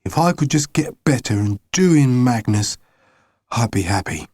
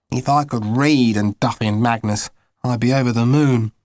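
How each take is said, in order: First: Growling. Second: Said in the usual way. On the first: Acted. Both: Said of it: "he growled".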